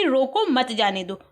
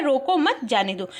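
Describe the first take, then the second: First: रोको set apart, then मत जाने दो run together; pause after रोको. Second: रोको मत run together, then जाने दो set apart; pause after मत. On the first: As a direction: break right after रोको. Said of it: "ये कॉमा जो लगा हुआ है ये रोको पर लगा हुआ है". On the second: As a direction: break right after मत. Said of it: "मत के बाद जब कॉमा लग गया यानी रोको मत". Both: Shown as a demonstration.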